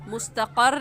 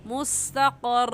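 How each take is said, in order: First: The final r sound is short and single. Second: The final r sound is held and doubled. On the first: The speaker calls it wrong. "मुस्तक़र नहीं कहना" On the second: The speaker calls it right. "बल्कि कहना है मुस्तक़र, क्योंकि दो रा है"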